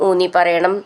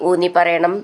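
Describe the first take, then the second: No difference in how they are said.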